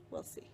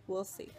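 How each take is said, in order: First: Breathy whispered aside. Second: Said in the usual way. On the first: Real, not acted. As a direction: whisper it to yourself. Repeats line, second take whispered.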